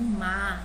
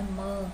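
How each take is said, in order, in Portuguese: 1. A vogal é aberta, com a boca mais larga. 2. A vogal é fechada, com a boca mais estreita. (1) "tô falando má" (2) "não é mã"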